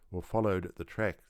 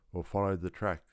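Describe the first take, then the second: No difference in how they are said.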